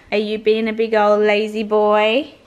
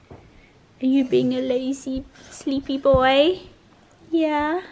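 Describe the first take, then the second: First: Louder doting call to the dog; loud pet talk. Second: Higher, slow, cooing pet voice. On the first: To her dog Alfie on the couch, loud doting call. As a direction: tease the lazy dog out loud. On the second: To her dog Alfie on the couch, slow higher coo. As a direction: coo it slowly to the sleepy dog. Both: Real, not acted.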